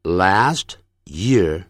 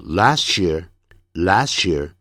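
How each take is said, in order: First: "last year" word by word; slow "last year" with a gap after last; careful, unlinked words. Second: "last year" run together as "las-chear"; linked sound change. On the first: (分开慢念last year，不变音) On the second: (连读last year，变音成ch) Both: Shown as a demonstration. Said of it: "念快的时候".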